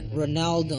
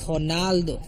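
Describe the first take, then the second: First: The name is said with an English pronunciation. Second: The name is said with a Portuguese pronunciation. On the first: "Ronaldo is not Ronaldo in Portuguese" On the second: "so I try to say it in Portuguese"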